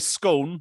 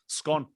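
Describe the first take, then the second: First: The vowel does not rhyme with gone. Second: The vowel rhymes with gone. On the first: The cake joke does not work this way. The speaker calls it wrong. "If you say scone, it just don't work" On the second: The cake joke works this way. The speaker calls it right. "As in it's gone"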